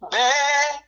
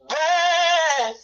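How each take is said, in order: First: The word is said short and clipped. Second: The word is drawn out long.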